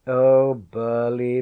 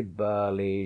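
First: Louder, slow teasing laugh on the name. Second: Said in the usual way. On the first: A narrator's reading. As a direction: laugh fondly at the boy. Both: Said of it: "she laughed".

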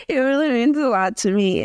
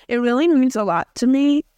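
First: Said in the usual way. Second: Laughing through a thank you; grateful words breaking into laughter. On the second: Real, not acted. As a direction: say it while laughing shyly.

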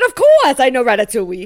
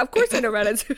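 First: Louder, hammed-up French accent; exaggerated French-accented retort; mock French accent. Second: Deliberately un-French American delivery; American accent. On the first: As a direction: imitate a Frenchman showing off. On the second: Acted. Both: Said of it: "in an American accent".

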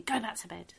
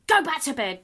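First: Said in the usual way. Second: Higher, louder mock shout; mum shouting. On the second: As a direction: bark it at the kid upstairs. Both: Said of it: "my mum shouting at me".

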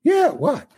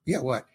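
First: High-pitched mock shout; exaggerated, jumpy acted answer; impatient reply. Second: Softer, casual acted answer; low-key "yeah, what"; offhand reply. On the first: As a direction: call it back, pitched way up. Director answering again, acted more sharply. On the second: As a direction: answer as if only half listening. Director first answering the nervous actor.

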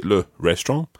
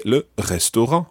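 First: 'le restaurant' said the English way, as 'REST-ront'; English pronunciation. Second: 'le restaurant' in French, uvular r and nasal final vowel; French pronunciation. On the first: Teacher showing learners what to avoid, English-sounding 'restaurant'. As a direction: say 'restaurant' with English sounds, last syllables squashed. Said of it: "Don't just say it in English". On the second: Teacher modelling for learners, French-accented 'restaurant', clearly sounded. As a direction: say 'restaurant' the French way, res-to-RAN with a silent t. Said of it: "put on a French accent".

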